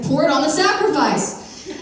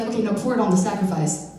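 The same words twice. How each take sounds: First: "Pour it on the sacrifice" higher and louder; insistent repeat. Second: Said in the usual way. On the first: Retold or imitated. Elijah repeating his odd order to baffled helpers, higher and louder. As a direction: push the order through their doubt.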